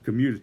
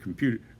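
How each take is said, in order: First: The word is said without a p sound. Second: The word is said with a p sound. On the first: The speaker calls it wrong. "he mispronounced it. He said commuters" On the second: The speaker calls it right. "He's saying computer"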